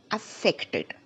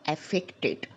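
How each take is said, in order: First: "affected" opening on a short weak uh; affected as uh-FEK-tid. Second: "affected" opening on a full AF, as in apple; affected said wrong. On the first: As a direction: model "affected" with schwa, then FEK. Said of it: "see the difference". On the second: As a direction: say "affected" the mistaken way, AF-fek-tid. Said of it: "and not affected". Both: Shown as a demonstration.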